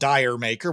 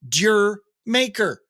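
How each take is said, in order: First: The first word sounds like 'dire'. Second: The first word sounds like 'deer'. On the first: The speaker calls it wrong. "It doesn't make any sense to be called Dire Maker" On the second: The speaker calls it right. "That's the way you read it"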